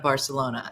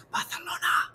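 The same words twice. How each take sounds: First: Said in the usual way. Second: "Barcelona" whispered with a Spanish th; whispered lisped Barcelona. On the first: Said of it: "You're saying it wrong". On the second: Retold or imitated. Correcting a girlfriend's pronunciation, whispered lisped Barcelona. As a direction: whisper "Barcelona" softly, lisping the c as th. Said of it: "You have to whisper it".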